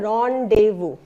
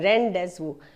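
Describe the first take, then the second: First: No z sound is heard mid-word. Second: A z sound is heard mid-word. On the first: The speaker calls it right. "प्रोनाउंसिएशन क्या है" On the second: The speaker calls it wrong. "कई लोग बोलते हैं"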